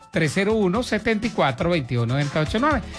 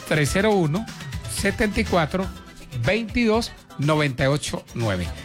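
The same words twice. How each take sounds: First: The number is said at a quicker pace. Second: The number is said slowly and deliberately.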